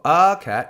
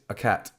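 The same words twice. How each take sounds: First: The article has a full vowel. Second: The article has a weak, neutral vowel. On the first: The speaker calls it wrong. "So not a cat" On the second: The speaker calls it right. "it's a cat"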